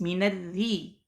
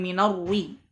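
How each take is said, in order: First: The r is pronounced thin and light. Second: The r is pronounced thick and heavy. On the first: The speaker calls it right. "Jadi dibaca tipis" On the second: The speaker calls it wrong. "bukan minarri"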